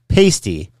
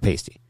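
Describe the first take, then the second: First: The A vowel is emphasized and drawn out. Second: The A vowel is plain and not emphasized.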